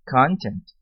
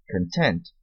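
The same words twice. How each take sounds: First: Content stressed on the first syllable, CONtent; noun stress. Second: Content stressed on the second syllable, conTENT, with a reduced first vowel; adjective stress. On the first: (Content com tônica na primeira sílaba, CONtent) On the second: (Content com tônica na segunda sílaba, conTENT) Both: Shown as a demonstration. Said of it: "sílaba tônica diferente".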